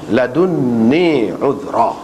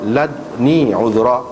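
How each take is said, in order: First: The d has a u vowel; the n is doubled. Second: The d has no vowel; lips round slightly. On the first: "baca dengan dhammah dal dan tasydid nun" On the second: "baca dengan mati dal itu dan dengan mengismamkannya kepada dhammah"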